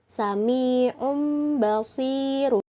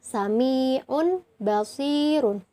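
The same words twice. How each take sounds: First: The tanwin before b sounds as a nasal m. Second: The tanwin before b sounds as a plain n. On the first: The speaker calls it right. "tapi jadi sami'un basirun" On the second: The speaker calls it wrong. "bukan sami'un basirun"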